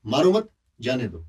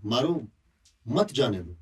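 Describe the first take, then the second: First: मारो मत run together, pause, then जाने दो; pause after मत. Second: मारो alone, clear pause, then मत जाने दो run together; pause after मारो. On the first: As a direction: put the comma right after मत, before जाने दो. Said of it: "मारो मत के बाद कॉमा लगा देंगे". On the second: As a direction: put the comma right after मारो, before मत. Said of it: "मारो के बाद अगर कॉमा लगा देंगे". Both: Shown as a demonstration.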